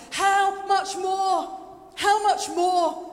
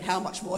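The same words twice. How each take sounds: First: Loud, slow, drawn-out cry; exultant proclamation. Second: Said in the usual way. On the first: Acted. Preacher voicing Paul's amazement at God, exultant. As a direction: proclaim it with full force. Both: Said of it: "he's not just going".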